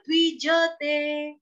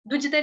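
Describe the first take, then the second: First: The 'j' is followed by a full vowel. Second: The 'j' is cut off without a vowel. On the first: The speaker calls it right. "यहाँ पे ज पूरा आपका" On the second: The speaker calls it wrong. "गलती से हमारे मुंह से द्विजते, द्विजते निकलता है, तो ज हमारा हलंत हो जाता है"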